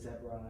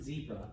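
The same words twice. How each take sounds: First: It is said with a British pronunciation. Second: It is said with an American pronunciation. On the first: "I've met British people, they call it a zebra" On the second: "Most Americans would pronounce it zebra"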